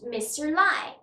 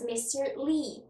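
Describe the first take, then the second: First: The name is pronounced like 'lie'. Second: The name is pronounced like 'lee'. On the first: The speaker calls it wrong. "It is not Mister Lai" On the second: The speaker calls it right. "it is Mister Li"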